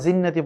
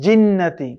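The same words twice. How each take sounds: First: The first consonant is said soft. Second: The first consonant is said hard. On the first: The speaker calls it wrong. "পড়া যাবে না" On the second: The speaker calls it right. "জিমটাকে শক্ত করে পড়তে হবে"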